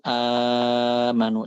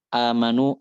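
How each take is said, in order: First: The first long vowel is held for six counts. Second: The first long vowel is held for two counts. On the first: "enam harokat"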